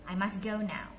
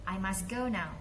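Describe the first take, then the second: No difference in how they are said.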